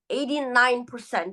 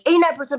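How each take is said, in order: First: The words are spoken at a steady pace. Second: The words are spoken very quickly. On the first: Listeners have time to understand each idea. The speaker calls it right. "A steady pace with natural pauses" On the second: Listeners may miss the important figure. The speaker calls it wrong. "if you're speaking too fast"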